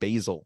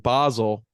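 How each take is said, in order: First: It is pronounced like the herb basil. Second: It is not pronounced like the herb basil. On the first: The speaker calls it wrong. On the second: The speaker calls it right.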